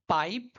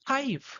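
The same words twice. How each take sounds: First: The p is plain, without a puff of air. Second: The p has a strong puff of air. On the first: The usual Indian way of saying it. "हम लोग बोलते हैं" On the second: The usual English way of saying it. "वो लोग बोलते हैं"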